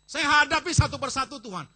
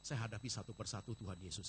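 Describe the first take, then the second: First: High, loud cry of faith; shouted declaration. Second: Said in the usual way. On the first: Shown as a demonstration. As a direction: shout it out to the Lord. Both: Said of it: "Kasih tahu dia".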